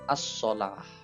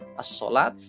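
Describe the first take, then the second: First: The word ends with an h sound. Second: The word ends with a t sound. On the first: The speaker calls it right. "tapi dibaca as-sholah" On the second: The speaker calls it wrong. "bukan dibaca as-sholat"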